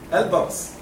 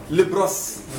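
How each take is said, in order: First: The word begins with a glottal stop and vowel. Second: The word begins directly with the l sound. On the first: The speaker calls it right. "we should put something before it, okay? Hamza" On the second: The speaker calls it wrong. "without Hamza al-qat ... You take it very fast"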